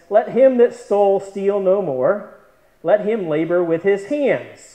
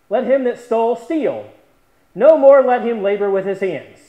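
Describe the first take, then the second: First: The break comes after the word 'more'. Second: The break comes after the word 'steal'. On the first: The thief should stop stealing and work instead. "Paul says" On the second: The thief should keep stealing and stop working. "we can change that punctuation"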